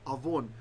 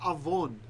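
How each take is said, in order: First: The middle consonant is a v sound. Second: The middle consonant is a v sound.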